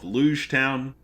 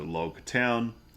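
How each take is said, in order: First: The first word sounds like 'luge'. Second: The first word sounds like 'log'. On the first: The speaker calls it wrong. "Just kidding" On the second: The speaker calls it right. "the town is pronounced like prologue"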